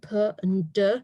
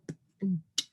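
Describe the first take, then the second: First: Each consonant is followed by an extra vowel. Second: Each consonant is short, with no extra vowel. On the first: The speaker calls it wrong. "instead of saying" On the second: The speaker calls it right. "you've got that correct"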